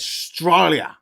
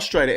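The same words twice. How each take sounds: First: "Australia" drawn out in broad Aussie, stretched "STRY" syllable; broad Australian accent. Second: Said in the usual way. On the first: Shown as a demonstration. Correcting co-host's "Australia" with a broad, slow Australian accent. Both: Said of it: "You gotta get it right".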